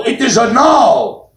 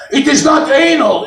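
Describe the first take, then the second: First: "anal" as ah-NAHL, slow and insistent; corrected pronunciation. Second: Indignant foreigner stressing "anal" on the first syllable, AY-nul; correcting pronunciation. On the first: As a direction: stretch out "anal" with stress on the second syllable, ah-NAHL. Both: Retold or imitated.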